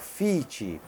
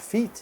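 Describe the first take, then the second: First: An extra vowel is added after the final consonant. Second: The word ends cleanly without an added vowel. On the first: "você já está criando lá no final uma segunda sílaba, uma vogal imaginária" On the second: "sem vogal imaginária"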